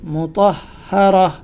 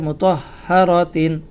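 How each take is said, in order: First: The word ends with a soft 'h' sound. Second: The word ends with a full 'tin' sound. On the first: The reader stops at this word. "থামার খাতিরে গোলতাটি হা হয়ে যাবে" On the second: The reading continues into the next word. "যদি আমরা মিলিয়ে পড়ি"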